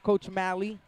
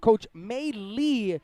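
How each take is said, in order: First: The name begins with a short 'mal' sound. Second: The name begins with a long 'may' sound. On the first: The speaker calls it wrong. "not Coach Malley" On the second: The speaker calls it right. "It's Coach May Lee"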